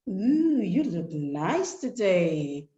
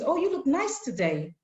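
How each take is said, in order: First: It sounds suggestive and sexually loaded. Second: It sounds like a plain, friendly compliment.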